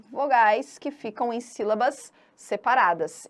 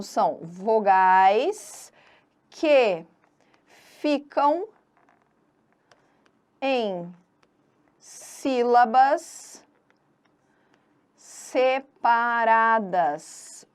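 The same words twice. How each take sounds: First: Said in the usual way. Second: Word by word, long pauses between; slow dictation. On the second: Shown as a demonstration. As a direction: drag each word, rising until the last. Dictates the definition while writing it. (ditado lento e pausado, palavra por palavra)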